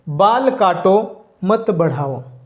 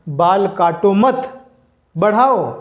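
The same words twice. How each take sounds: First: There is a pause right after 'kaato'. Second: There is a pause right after 'mat'. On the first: Cut the hair; do not grow it. "इस वाक्य को इस तरह से हम बोल सकते हैं" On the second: Do not cut the hair; grow it. "अल्प विराम को यहाँ से हम हटा देंगे और यहाँ पर देंगे"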